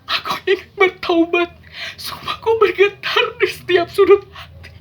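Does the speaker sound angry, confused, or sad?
sad. It is soft and sorrowful, with a mournful tone. The speaker is grieving. "Itu adalah ekspresi sedih"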